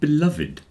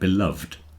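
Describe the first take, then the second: First: The ending is said as a separate extra syllable. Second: The ending is silent, giving one syllable fewer. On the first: "It's always pronounced beloved" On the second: "Normally, you don't pronounce the E"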